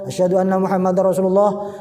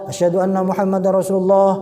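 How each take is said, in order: Both takes have the same delivery.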